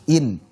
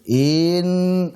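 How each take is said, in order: First: The vowel goes straight into the n. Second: The vowel before the n is drawn out. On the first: The speaker calls it right. "harusnya langsung in" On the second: The speaker calls it wrong. "seolah-olah inya panjang"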